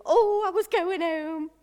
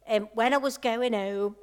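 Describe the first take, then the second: First: Higher, louder burst of delight; bright exclaim. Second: Said in the usual way. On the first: Real, not acted. Preacher recalling surgery homecoming, excited. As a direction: lift the voice with a happy oh.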